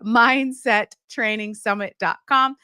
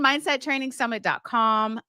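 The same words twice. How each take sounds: First: The address is said at a slower pace. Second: The address is said at a quicker pace.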